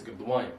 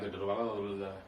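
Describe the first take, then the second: First: The middle syllables are run together and dropped. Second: Extra middle syllables are pronounced in full. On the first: The speaker calls it right. "It's Gadwayim" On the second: The speaker calls it wrong. "Not Gadalawayim"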